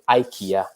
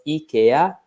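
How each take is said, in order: First: It is said with an English pronunciation. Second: It is said with an Italian pronunciation. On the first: "in English, most of the times, you know, like iPhone, iPad" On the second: "in Italian it's pronounced IKEA"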